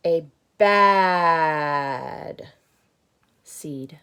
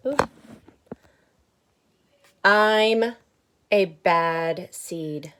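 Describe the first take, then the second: First: Loud, then falling to a whisper; bad seed fading. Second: Loud, slow, proud grumbling seed; bad seed's voice. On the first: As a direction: say it, then let it sink to a whisper. Repeat fades to a whisper. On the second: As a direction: announce it like a confession. Book seed speaks, slow and loud.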